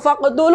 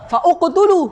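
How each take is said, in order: First: The initial u vowel is dropped and linked. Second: The initial u vowel is pronounced separately. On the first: The speaker calls it right. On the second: The speaker calls it wrong.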